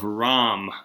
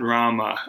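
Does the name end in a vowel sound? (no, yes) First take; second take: no; yes. First: The name ends on the consonant m. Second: The name ends with a vowel after m. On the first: This is the Hindi form of the name. The speaker calls it right. "R-A-M, not Rama. We're using the Hindi pronunciation" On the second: This is not the Hindi form of the name. The speaker calls it wrong. "not Rama"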